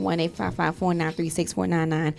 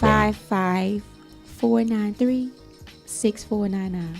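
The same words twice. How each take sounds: First: The number is said fast. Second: The number is said slowly.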